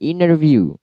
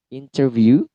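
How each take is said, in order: First: The t sound after n is dropped. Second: The t sound after n is pronounced. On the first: "Terkadang T-nya hilang" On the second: "itu yang asli"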